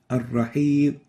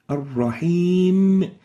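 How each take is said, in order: First: The final m is cut off and barely heard. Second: The final m is fully voiced and clearly heard. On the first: The speaker calls it wrong. "almost not pr pronouncing the meme here" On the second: The speaker calls it right. "the right way of, of pronouncing it here is ar-rahim"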